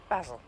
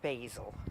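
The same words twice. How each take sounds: First: It is said in a British accent. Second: It is said in an American accent.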